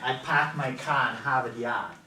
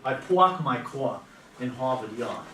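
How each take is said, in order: First: It has a New England accent, dropping the R. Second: It has a Brooklyn New York accent.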